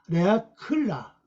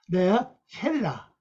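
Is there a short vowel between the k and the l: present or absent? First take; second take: absent; present. First: The k and l run together with no vowel. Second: A short vowel is sounded between k and l. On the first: The speaker calls it wrong. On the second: The speaker calls it right.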